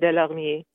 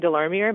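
First: The name is said the French way. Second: The name is said the English way.

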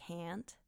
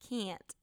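First: The word is said in a neutral accent. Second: The word is said in a Wisconsin accent. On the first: "when you say the word can't" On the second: "apparently I say like can't"

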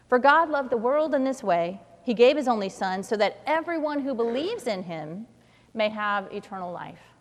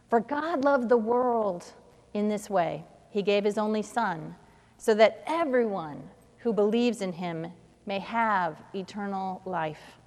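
First: The stress is on believes. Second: The stress is on world.

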